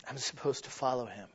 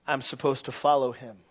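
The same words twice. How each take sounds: First: Quiet repeat. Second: Said in the usual way. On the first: Shown as a demonstration. Preacher softly repeating the call to follow Jesus. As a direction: follow him said much softer and low. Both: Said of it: "repeated line".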